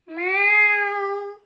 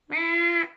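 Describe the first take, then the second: First: It is voiced like a mommy kitten. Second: It is voiced like a daddy cat.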